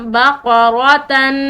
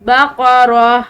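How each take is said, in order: First: The word ends with a -tan sound. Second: The word ends with a soft h sound. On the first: The reciter carries on without stopping. The speaker calls it wrong. "ये बगैर वक्फ के हो गया" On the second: The reciter stops on this word. The speaker calls it right. "इसको वक्फ के साथ पढ़ा जाएगा"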